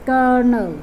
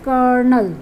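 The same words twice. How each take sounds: The two takes are said the same way.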